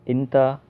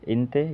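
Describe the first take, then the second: First: It starts with an i sound and ends in a. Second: It starts with an i sound and ends in e. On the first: "कहीं कोई बोलता है इंता" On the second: "कोई इंते बोलता है"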